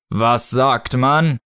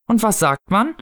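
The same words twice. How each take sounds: First: Very slow, solemn prompt; Snow Father figure. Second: High parental prompt, rising at the end; prompting mother. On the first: Acted. Snow Father prompting a child's thanks, slow solemn voice. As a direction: spell out each word with grave weight. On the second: A narrator's reading. Mother prompting her child's manners, high coaxing voice. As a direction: coax a small child to say thanks. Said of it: "sprach in jenem Tonfall, den Erwachsene benutzen".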